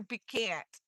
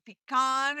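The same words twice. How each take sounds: First: "pecan't" with a short a, as in can't; pee-CAN'T pronunciation. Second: "pecan" with a broad ah, pushed louder; pee-KAHN pronunciation. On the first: Punning on can and can't, "pecan't" as pee-CAN'T. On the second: Punning on can and can't, "pecan" as pee-KAHN. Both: Shown as a demonstration. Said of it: "You pecan or you pecan't".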